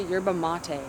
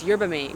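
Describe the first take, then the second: First: "mate" said as two syllables, "mah-tay"; Spanish-style "mate", stress on "ma"; "yerba mate" with "mate" as "MAH-teh"; two-syllable maté. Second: "mate" said as one syllable, like "mayt"; "yerba mate" with a plain English "mate". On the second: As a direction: rhyme "mate" with "gate". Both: Shown as a demonstration. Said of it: "Is it yerba mate or yerba mate?".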